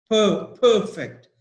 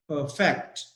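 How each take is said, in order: First: PER-fect, first syllable of "perfect" high and loud; stress on first syllable. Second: Per-FECT, "perfect" stressed on its second part; stress on second syllable. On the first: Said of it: "So stress is on per". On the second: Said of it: "stress is on the second part". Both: Shown as a demonstration.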